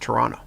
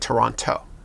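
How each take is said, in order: First: The final T sound is dropped. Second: The final T sound is clearly pronounced. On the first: It marks the speaker as a real Canadian. The speaker calls it right. "The T at the end they don't pronounce it" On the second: It marks the speaker as not a real Canadian. The speaker calls it wrong. "not to say Toronto"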